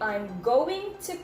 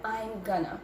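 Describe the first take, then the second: First: Each word is said fully and separately. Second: The words are blended into one short form. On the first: "I did not say" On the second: "but I said I'm gonna"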